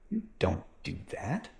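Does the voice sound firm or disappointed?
disappointed. The voice sounds disappointed and let down.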